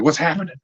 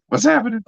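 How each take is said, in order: First: Higher, startled asking; retelling his own confused alarm; alarmed disbelief. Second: Much higher, near-panicked repeat; the question jumps way up in pitch; frantic disbelief. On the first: Fan listening to the radio, asking in alarmed disbelief. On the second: Fan hearing bad news on the radio, asking frantically. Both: Retold or imitated. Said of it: "I'm like".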